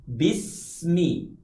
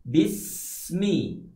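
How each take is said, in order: Both takes have the same delivery.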